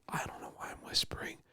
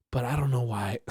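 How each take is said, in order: First: Soft unexplained whisper; hushed whisper. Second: Said in the usual way. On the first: Real, not acted. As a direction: whisper it, very softly.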